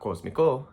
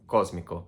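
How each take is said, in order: First: Cósmico as cos-mi-CO, higher and louder; wrong final stress. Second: Cósmico stressed as CÓS-mi-co, falling; stress on first syllable. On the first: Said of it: "not cósmico". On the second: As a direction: land firmly on CÓS in cósmico. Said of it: "that you stress rather". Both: Shown as a demonstration.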